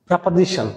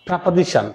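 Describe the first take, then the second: Both takes have the same delivery.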